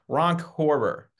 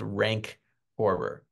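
First: The first word rhymes with 'honk'. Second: The first word rhymes with 'bank'.

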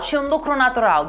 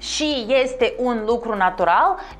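First: The vowels are dropped and the words run together. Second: Every word is said in full, with all vowels. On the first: "Au dispărut vocalele, practic" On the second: "În loc să spun și este un lucru natural"

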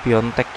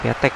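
First: The first vowel is a nasal 'on' sound. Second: The first vowel is a plain 'a' sound. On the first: The speaker calls it right. "tapi Piontek" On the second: The speaker calls it wrong. "bukan Piatek"

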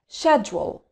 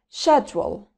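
First: It is said with a British accent. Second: It is said with a British accent.

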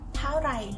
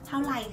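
First: The second word starts with an R sound. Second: The second word starts with an L sound. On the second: "các bạn đi Bangkok thì bạn sẽ nghe chữ R nó thành chữ L"

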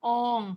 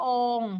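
No difference in how they are said.

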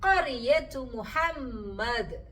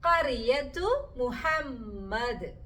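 The two takes are said the same way.

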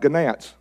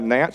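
First: The word starts with a hard g sound. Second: The word starts with a plain n sound. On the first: This follows the written spelling. "That's the way I say it because that's the way it's written" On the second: This is how others usually say it. "I don't have gnats"

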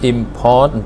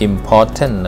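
First: It is said with a native English accent. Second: It is said with a Thai accent.

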